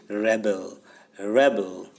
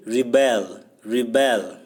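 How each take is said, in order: First: Rebel as REB-ul, stress on the first syllable; noun pronunciation. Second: Rebel as ri-BEL, stress on the second syllable; verb pronunciation. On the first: Teacher shows students the noun form, rebel stressed up front as REB-ul. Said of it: "when it is used as noun". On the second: Teacher shows students the verb form, rebel stressed on the end as ri-BEL. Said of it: "its pronunciation will be different". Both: Shown as a demonstration.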